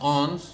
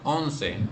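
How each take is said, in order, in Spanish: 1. La palabra termina sin sonido vocálico final. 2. La palabra termina con una vocal final que se pronuncia. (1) "la E final no se pronuncia, entonces por eso decimos ons" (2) "no decimos once"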